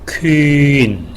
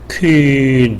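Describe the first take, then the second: First: The vowel starts rounded and glides into in. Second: The vowel stays one steady rounded sound throughout. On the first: "퀴로 시작해서 인으로 끝나게" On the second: "처음 유로 시작해서 끝날 때도 유죠"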